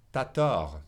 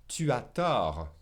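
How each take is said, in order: First: "T'as" run together as one syllable, ta; contracted "T'as". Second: "Tu as" as two separate words, drawn out slowly; full "Tu as". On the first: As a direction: drop the u and say "T'as tort" as in quick speech. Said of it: "they'll drop the U and say ta". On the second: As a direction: say "Tu as tort" slowly, keeping the u in "Tu". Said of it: "say ta instead of tu as". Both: Shown as a demonstration.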